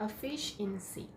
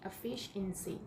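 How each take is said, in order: No difference in how they are said.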